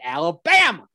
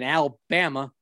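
First: It is yelled like Forrest Gump. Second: It is said in a plain, normal voice.

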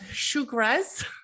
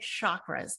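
First: The word is said in an Indian-style pronunciation. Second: The word is said in an American-style pronunciation. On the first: The speaker calls it right. "I will try to pronounce it correctly. So I think you pronounce it as chakras" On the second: The speaker calls it wrong. "For me, it's easier to say chakras"

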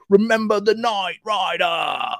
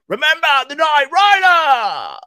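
First: It is said in a calm, plain way. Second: It is said in a wild, manic way.

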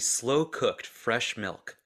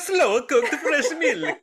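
First: It is read in the speaker's normal voice. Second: It is said in an exaggerated Italian-style accent.

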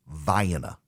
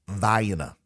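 The two takes are said the same way.

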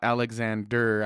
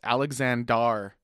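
First: The final syllable has an 'eh' vowel. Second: The final syllable has an 'ah' vowel. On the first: The speaker calls it wrong. "not Alexander ... they're going to throw that E in there" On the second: The speaker calls it right. "it's Alexander"

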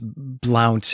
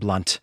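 First: The vowel rhymes with the word count. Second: The vowel rhymes with the word hunt. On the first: The speaker calls it wrong. "you pronounced the name of this character as Blount, and it is spelled that way, as in like Count" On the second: The speaker calls it right. "this is probably meant to be pronounced as Mr. Blunt"

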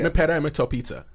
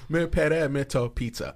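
First: It is said fast. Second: It is said slowly.

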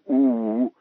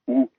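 First: The vowel is held longer. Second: The vowel is held briefly. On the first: "a long vowel" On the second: "a short vowel"

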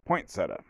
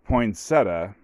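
First: The first syllable sounds like the word 'point'. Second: The first syllable is 'poin' with no t sound. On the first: "like pointing a finger at someone" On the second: "but it's pronounced poinsettia"

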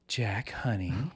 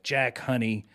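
First: It is said in a put-on, prettier voice. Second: It is said in the speaker's ordinary voice. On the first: The speaker calls it right. "in a different, more beautiful voice" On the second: The speaker calls it wrong. "not in this voice"

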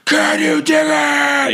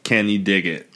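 First: It is yelled, sounding furious. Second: It is said calmly, in Cyrus's style.

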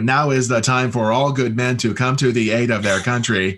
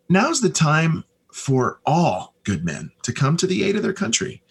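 First: It sounds stiffly read aloud, like an announcer. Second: It sounds natural and conversational, like everyday talk.

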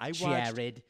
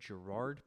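First: The name is said like Jared. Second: The name is said like Gerard. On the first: The speaker calls it right. "Apparently it's Jared" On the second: The speaker calls it wrong. "His name is not Gerard"

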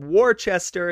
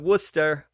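First: The name is said as it is spelled. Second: The name is said the local way. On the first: The speaker calls it wrong. "I said it incorrectly" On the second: The speaker calls it right. "instead of"

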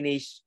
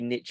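First: It is said the British way. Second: It is said the American way. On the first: "I say niche" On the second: "I think you say niche. ... How do you say it in the States?"

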